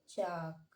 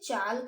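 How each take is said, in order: First: The L sound is silent. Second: The L sound is pronounced. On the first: The speaker calls it right. "अब हम इसे पढ़ेंगे चाक" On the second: The speaker calls it wrong. "अब हम इसे चाल्क नहीं पढ़ेंगे"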